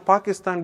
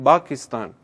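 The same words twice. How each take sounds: First: It has the local Urdu-style pronunciation. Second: It has an Arabic-style pronunciation. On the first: This is how it was said before. "suddenly now Pakistan became" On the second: This is how it came to be said. "became Pakistan"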